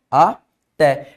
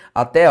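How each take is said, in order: First: "até" drawn out as two separate syllables; split into syllables. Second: Said in the usual way. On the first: Shown as a demonstration. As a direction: break "até" as a, pause, té. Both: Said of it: "eu separo assim".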